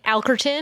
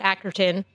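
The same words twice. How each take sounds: First: The L sound is clearly pronounced. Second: The L sound is dropped. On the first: This is how the owner of the name says it. "But like you use the L" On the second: This is how other people often say it. "Sometimes people just throw out Alkerton"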